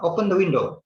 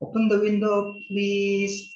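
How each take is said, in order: First: Bare, curt command; a touch rude, commanding. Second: Gentle polite request. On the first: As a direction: order it flatly, no please. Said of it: "it's a little bit, um, quote unquote rude". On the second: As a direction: ask kindly, not ordering. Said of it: "Lebih, lebih lembut dibandingkan dengan". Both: Shown as a demonstration.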